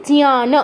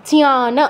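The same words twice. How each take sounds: The two takes are said the same way.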